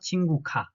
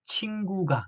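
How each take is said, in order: First: The last syllable starts with a voiceless k. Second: The last syllable starts with a voiced g. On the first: The speaker calls it wrong. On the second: The speaker calls it right. "we should pronounce it as G, uh, g, g, g sound, like"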